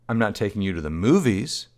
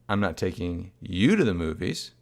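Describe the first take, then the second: First: The stress falls on the word movies. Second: The stress falls on the word you. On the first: The child may be taken somewhere else. "the implication being she might be taking the child elsewhere" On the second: The mother may go without the child. "in which case maybe the mom's going out without the child"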